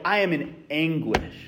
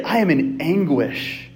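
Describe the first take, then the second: First: Quiet, heavy admission of pain; mock confession of anguish, softer. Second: Slow, deliberate declaration of anguish; mock anguish stated plainly and slowly. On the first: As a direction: let it sink low and soft, like real despair. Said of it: "You're like". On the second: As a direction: lean on each word, measured and grave. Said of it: "But you say".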